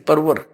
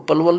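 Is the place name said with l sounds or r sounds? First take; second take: r sounds; l sounds. First: It is said with r sounds, local Palwal style. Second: It is said with l sounds, standard style.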